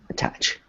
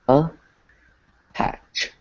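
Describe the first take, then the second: First: It is said quickly as one smooth word. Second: It is said slowly, split into syllables. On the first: "if you say it quickly" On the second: "if we were to break it down"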